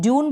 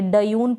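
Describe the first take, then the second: First: The d blends straight into the y sound. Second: The d is a full separate syllable. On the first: The speaker calls it right. "ड्यून बोल रहे हैं, इसका मतलब आधा अक्षर पढ़ा जा रहा है" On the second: The speaker calls it wrong. "डयून पढ़ रहे नहीं"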